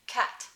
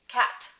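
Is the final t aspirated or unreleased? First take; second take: aspirated; aspirated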